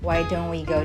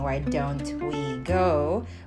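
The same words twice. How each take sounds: First: The t in don't is dropped. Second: The t in don't is pronounced. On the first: "we say" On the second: "Instead of saying why don't we go"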